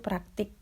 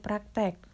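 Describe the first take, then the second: First: The last syllable has the vowel i. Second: The last syllable has the vowel e. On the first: It is the standard form used in formal writing. "kosakata bakunya itu praktik" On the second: It is the informal everyday form. "kosakata tidak bakunya itu praktek"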